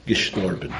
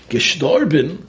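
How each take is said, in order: First: Said in the usual way. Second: High, louder rising Gestorben? in disbelief; shocked echo. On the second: Acted. Host hearing his debtor died, high shocked question.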